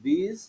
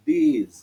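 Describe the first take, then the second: First: THIS short and softer, tune rising; a brief, light i in THIS; short vowel. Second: THESE with a long ee, falling tune; long vowel. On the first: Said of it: "রস্বইকার উচ্চারণ একটু কম হয়". (THIS-এ হ্রস্ব ই, নরম ও ছোট) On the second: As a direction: stretch the ee in THESE. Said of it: "দীর্ঘইকার উচ্চারণ একটু বেশি হয়". (THESE-এ দীর্ঘ ঈ টেনে) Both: Shown as a demonstration.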